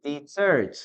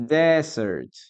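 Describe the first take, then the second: First: "Desert" said de-ZERT, stress on the second syllable; "Desert" as the verb, second syllable strong; verb pronunciation. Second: "Desert" said DEZ-ert, stress on the first syllable; "Desert" as the noun, first syllable strong; noun pronunciation. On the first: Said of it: "On the other hand, this is like this". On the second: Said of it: "Okay, this is like this". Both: Shown as a demonstration.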